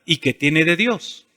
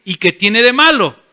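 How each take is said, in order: First: "¿Y qué tiene de Dios?" asked softer and slower; reflective question. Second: Objector's retort. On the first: Shown as a demonstration. Pastor modeling the right question, soft and slow. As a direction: turn the question inward. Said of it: "siempre hazte esta pregunta". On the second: Pretend. Churchgoer challenging the pastor, mildly defiant. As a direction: push back like a skeptic. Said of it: "alguien va a decir".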